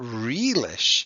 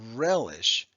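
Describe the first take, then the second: First: The first vowel is a long E sound. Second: The first vowel is a short E sound. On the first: The speaker calls it wrong. "It's not relish" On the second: The speaker calls it right. "It's a short E"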